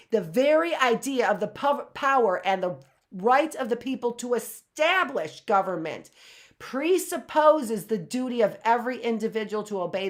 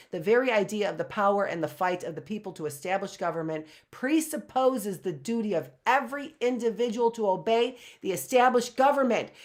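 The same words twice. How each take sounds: First: Louder, weighty reread with stress on very and establish; emphatic reread. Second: Rushed first read-through; fast, flat first pass over the passage; quick first read. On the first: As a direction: read it again and lean on each key word. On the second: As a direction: skim the line fast before reading it properly. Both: Shown as a demonstration. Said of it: "rereads same passage".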